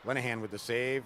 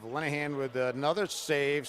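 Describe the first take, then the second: First: Said in the usual way. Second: Louder, higher call on another; building play-by-play call; rising excitement. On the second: Real, not acted. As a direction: call the second save with a lift. Second save, rising excitement.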